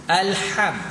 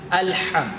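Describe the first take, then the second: The two takes are said the same way.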